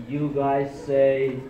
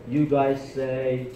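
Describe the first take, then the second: The two takes are said the same way.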